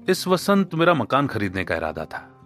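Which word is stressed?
इस. The stress is on इस.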